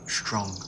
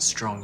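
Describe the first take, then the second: First: The word begins with an sh-like sound. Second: The word begins with a plain s sound. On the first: "where the S retracts and sort of becomes like an S H sound" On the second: "instead of"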